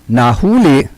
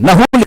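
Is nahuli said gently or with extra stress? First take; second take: gently; extra stress. First: The word is said gently, without added stress. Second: The word is said with a little added stress. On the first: Someone was caught or apprehended. "malumanay na nahuli" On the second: Someone arrived late. "may stress ng konti"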